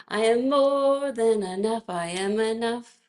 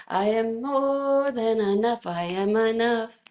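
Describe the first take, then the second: Both takes have the same delivery.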